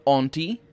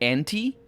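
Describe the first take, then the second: First: The first syllable sounds like 'aunt'. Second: The first syllable sounds like 'ant'. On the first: "not auntie, although both of them work apparently" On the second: "I'm going with anti because I think it's better for me to pronounce it"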